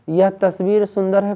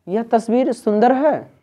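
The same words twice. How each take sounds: First: Said in the usual way. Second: Higher-pitched wonder, falling at the end; exclamation of surprise. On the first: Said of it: "common वाक है". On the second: Shown as a demonstration. Teacher showing students an exclamatory sentence, surprised. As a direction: marvel at how सुंदर it is. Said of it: "विस्मय कर".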